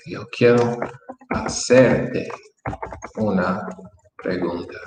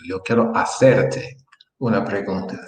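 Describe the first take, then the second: First: Slow dictation. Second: Said in the usual way. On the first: Shown as a demonstration. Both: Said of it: "let me help you with".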